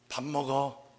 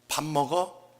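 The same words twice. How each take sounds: First: It is said as an answer, falling. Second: It is asked as a question, rising.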